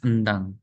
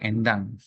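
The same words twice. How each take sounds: First: The first vowel is a weak, reduced schwa. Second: The first vowel is a clear, strong 'e'. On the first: "Kalau e lemah endang" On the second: "Kalau orang Batak bilangnya endang"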